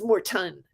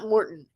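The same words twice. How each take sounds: First: The T sound is clearly pronounced. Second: The T sound is dropped or swallowed. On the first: The speaker calls it right. "you have to make sure that you could you pronounce the T" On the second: The speaker calls it wrong. "It's not Morton"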